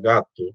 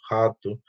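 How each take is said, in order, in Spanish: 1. La palabra empieza con un sonido de g dura. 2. La palabra empieza con un sonido de h aspirada. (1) "a palabra gato"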